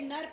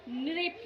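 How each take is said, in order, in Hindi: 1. पहला अक्षर 'nar' जैसा सुनाई देता है। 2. पहले अक्षर में 'ri' की आवाज़ है। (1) "ये नर्प नहीं है" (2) "ये है नृप ... री की साउंड आ रही है"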